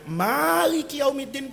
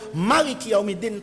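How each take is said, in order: First: The first vowel of Maliki is lengthened. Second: The first vowel of Maliki is short. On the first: "pakai mat tabi'i" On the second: "tanpa mat tabi'i"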